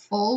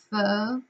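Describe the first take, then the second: First: The word ends with a clear L sound. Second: The word ends without any L sound. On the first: The speaker calls it right. "the L sound at the end of full" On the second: The speaker calls it wrong. "she would kind of leave it off. It would be more like pho"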